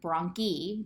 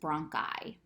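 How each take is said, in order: First: The word ends with an 'ee' sound. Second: The word ends with an 'eye' sound. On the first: The speaker calls it wrong. "this isn't bronchi" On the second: The speaker calls it right. "it's pronounced I"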